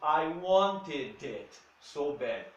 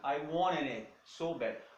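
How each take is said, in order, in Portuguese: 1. Os sons de T são pronunciados mais nitidamente. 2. Os sons de T se fundem num N nasal. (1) "O inglês britânico já vai mais pro lado do" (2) "essa é a pronúncia americana"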